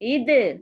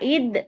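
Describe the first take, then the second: First: The final consonant is released with a bouncing echo. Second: The final consonant stops dead with no echo. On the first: The speaker calls it right. "இந்த மாதிரி அசைக்கணும்" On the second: The speaker calls it wrong. "இத் சொல்லாம"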